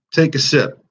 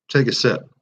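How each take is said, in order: First: "Take a sip" pitched higher and pushed harder; emphatic repeat. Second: Said in the usual way. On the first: Shown as a demonstration. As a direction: urge viewers to join the toast with "Take a sip". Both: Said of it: "if you got a coffee".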